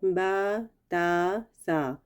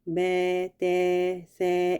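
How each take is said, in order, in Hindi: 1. स्वर पूरा, खुला 'a' है। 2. स्वर 'e' जैसी आवाज़ की ओर झुका हुआ है। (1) "सही तरीका क्या है" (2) "ये वाली आवाज़ आएगी, तो ये नहीं आ"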